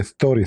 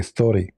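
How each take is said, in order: First: "story" with a lisped, hissing start; Zakir's story. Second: Said in the usual way. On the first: Shown as a demonstration. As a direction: lisp the s in "story". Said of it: "When Zakir Naik, he speak, he don't say story". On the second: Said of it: "You cannot say story".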